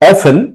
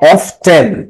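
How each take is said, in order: First: The word is said without a t sound. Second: The word is said with a t sound.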